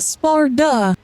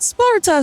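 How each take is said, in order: First: The middle consonant is a D sound. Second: The middle consonant is a T sound. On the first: The speaker calls it right. "It's a D" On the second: The speaker calls it wrong. "Not Sparta"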